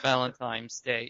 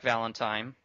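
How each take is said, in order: First: The word is said with an N sound. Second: The word is said without an N sound. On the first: The speaker calls it right. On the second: The speaker calls it wrong. "I tend to pronounce it like"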